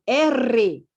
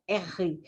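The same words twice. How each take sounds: First: R said "érre" with a strongly rolled r, louder; other regional R. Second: R said "érri" with a throaty h-like rasp; regional R. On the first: Teacher showing pupils how others say the letter, rolled R. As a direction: roll the tongue hard on R, ending in a clear e. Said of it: "outros falam R". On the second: Teacher showing pupils one regional name of the letter, aspirated R. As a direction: say R with an aspirated, h-like double r. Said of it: "algumas regiões do Brasil que falam R". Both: Shown as a demonstration.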